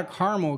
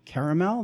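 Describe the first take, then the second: First: Caramel said CAR-mul; caramel with the middle A dropped; barista's caramel pronunciation. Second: Caramel said KERR-uh-mel; caramel with its middle A; own caramel pronunciation. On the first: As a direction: say caramel in two syllables. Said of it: "They're like". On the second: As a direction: say caramel in three syllables. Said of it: "I'm like". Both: Retold or imitated.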